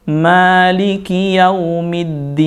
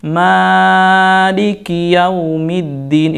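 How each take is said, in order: First: "Maliki Yaumiddin." with the "ma" held only two beats; short, even "ma" in "Maliki Yaumiddin."; two-beat vowel. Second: "Maliki Yaumiddin" with the "ma" dragged too long; overlong vowel. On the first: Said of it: "Cukup dua harokat saja". ("Maliki Yaumiddin." dengan mad dua harakat) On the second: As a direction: stretch the "ma" of "Maliki" far past two beats. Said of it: "itu kelebihan". ("Maliki Yaumiddin" dengan mad terlalu panjang) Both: Shown as a demonstration.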